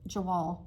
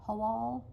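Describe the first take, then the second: First: It is pronounced with an English reading. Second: It is pronounced with a German reading. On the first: The speaker calls it wrong. "but that's not how you pronounce it... that's the English version" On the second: The speaker calls it right. "it's like"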